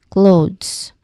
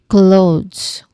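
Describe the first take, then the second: No difference in how they are said.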